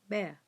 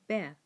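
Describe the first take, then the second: No difference in how they are said.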